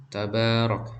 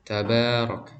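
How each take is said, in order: No difference in how they are said.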